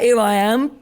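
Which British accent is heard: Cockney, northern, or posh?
Cockney. It is said in a Cockney accent. "like a Cockney geezer would be like"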